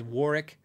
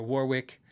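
First: Warwick with a silent second W; Warwick as WOR-ick. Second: Warwick with both W's sounded; Warwick as WOR-wick. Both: Shown as a demonstration. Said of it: "what the right way to say".

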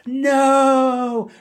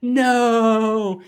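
First: Host acting out the steamrolled guard's scream; mock no shout. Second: Host acting out Little John's scream; mock no shout. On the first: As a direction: yell no like a panicked guard. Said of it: "he's just like". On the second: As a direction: cry no in a panic. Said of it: "you just hear".

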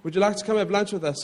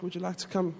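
First: Quick amateur attempt at British; bad British accent. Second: Hushed, much softer invitation; very quiet. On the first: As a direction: try a British accent, not very well. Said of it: "I'll try to do a British accent". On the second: Retold or imitated. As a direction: imitate a quiet man inviting softly. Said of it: "he's very quiet".

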